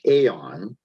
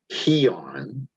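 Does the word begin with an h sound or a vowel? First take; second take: vowel; h sound. First: The word begins directly with a vowel sound. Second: The word begins with an h sound. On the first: "The second word is aeon" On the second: "according to Strong's, it should be pronounced heon"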